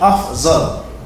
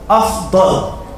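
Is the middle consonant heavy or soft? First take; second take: soft; heavy. First: The middle consonant is a soft z sound. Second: The middle consonant is heavy and emphatic. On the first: The speaker calls it wrong. "It's totally changing and switching and messing it all up" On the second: The speaker calls it right. "a Dad is not like a Zay"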